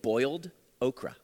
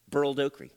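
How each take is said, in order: First: Boiled is said in a standard, non-southern accent. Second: Boiled is said in a southern accent, like burled.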